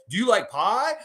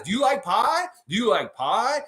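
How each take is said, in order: First: Higher wrestler taunt, stress on "like"; The Rock. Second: Higher, teasing wrestler taunt; The Rock. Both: Retold or imitated. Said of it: "You know what The Rock would say".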